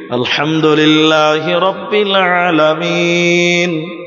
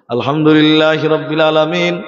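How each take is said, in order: First: It is recited slowly, broken into pieces. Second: It is recited very fast, with quick breaths.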